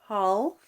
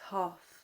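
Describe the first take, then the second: First: The L sound is pronounced. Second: The L sound is left out. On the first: The speaker calls it wrong. "it's not half" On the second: The speaker calls it right. "The L is silent"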